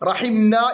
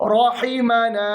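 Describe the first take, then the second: First: The m sound has no vowel after it. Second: A vowel follows the m sound. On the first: The speaker calls it wrong. "മീമിന് സുക്കൂൻ കൊടുത്തു പോകരുത്" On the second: The speaker calls it right. "മീമിന് ഫത്ഹാണ്"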